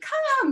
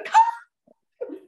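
First: Said in the usual way. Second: A sharp, much higher and louder urgent cry; panicked recall call. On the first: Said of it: "you're not going". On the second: Shown as a demonstration. Trainer shows the emergency recall, shouted high in panic. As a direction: yell it as if the dog is about to be hit. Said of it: "you're going".

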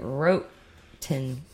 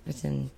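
First: "wrote-ten" said as WROTE plus TEN; mispronounced written. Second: Said in the usual way. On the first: Pretend. Host botching a word about England, "wrote-ten" for written. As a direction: say "wrote-ten" in two separate parts, wrote and ten.

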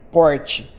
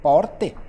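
First: "porte" said as PORT-chee, with a palatal "chi" ending; "porte" in his own accent, ending in a chee sound; own pronunciation. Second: "porte." said the southern way, with a tapped r and a clean "te" ending; "porte." as people in southern Brazil say it; southern pronunciation. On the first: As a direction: say "porte" the way he says it, the final te turned into chee. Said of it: "eu falo porte". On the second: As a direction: say "porte." with a crisp final te and no chee sound. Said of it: "lá eles vão falar porte". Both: Shown as a demonstration.

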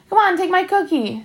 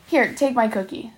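First: Higher-pitched, pushy coaxing; needling insistence; insistent pestering. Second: Said in the usual way. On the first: A narrator's reading. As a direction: egg him on with a teasing push. Bully pestering with repeated cookie offer.

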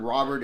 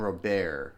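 First: Robert as "ROB-ert"; Robert stressed on the first syllable; English pronunciation. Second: Robert as "roh-BAIR", silent t; Robert ending like "bear"; French-style pronunciation. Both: Shown as a demonstration. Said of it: "I've heard Robert and Robert".

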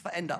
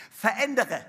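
First: Veränder clipped, no final e; veränder said quietly as the wrong version; wrong form. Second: Verändere with the final e clearly spoken; Verändere, all four syllables, the corrected word; correct form. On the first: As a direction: drop the last syllable: veränder. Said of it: "ein falsches Wort". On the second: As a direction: say Verändere in full, ending on a clear e. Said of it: "grammatikalisch endlich richtig". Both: Shown as a demonstration.

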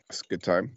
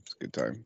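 First: Said in the usual way. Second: Lower, much softer mock voice; deep muttered echo. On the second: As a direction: echo it low and mumbled. Echoed in a different voice.

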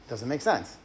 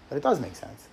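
First: Said in the usual way. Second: Does pressed hard, the rest left plain; stress on does. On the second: Shown as a demonstration. Correcting himself to the audience, pressing does. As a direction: land on "does" to contradict.

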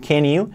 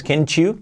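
First: "can you" run together as "ken-yu"; "can you" joined, with no CH; linked "can you". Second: "can you" mispronounced as "ken-chu"; "can you" with a hard CH before the vowel; wrong linking. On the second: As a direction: put a CH into "can you", like "can chew". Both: Shown as a demonstration. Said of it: "Se une, no es can you".

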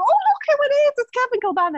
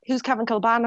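First: Very high, excited fan squeal; fangirling. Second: Said in the usual way. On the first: Retold or imitated. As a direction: gush like a starstruck fan spotting a footballer. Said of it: "like, fangirling". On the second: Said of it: "And he was like".

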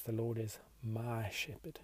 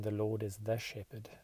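First: "my" set apart as the key word; stress on MY. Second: Light stress on "the" before shepherd; "the" given weight, as against "my". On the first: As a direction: lean on the word "my". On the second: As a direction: lean on the word "the" in "the shepherd". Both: Shown as a demonstration. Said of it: "includes this edit".

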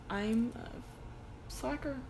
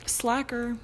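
First: Soft, slow self-mocking admission; self-deprecating. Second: Said in the usual way. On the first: Real, not acted. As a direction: admit it sheepishly, slowly. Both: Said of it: "I'm looking back at and I'm like".

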